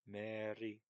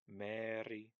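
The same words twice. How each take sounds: First: The r sound is dropped. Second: The r sound is clearly pronounced. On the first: The speaker calls it right. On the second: The speaker calls it wrong.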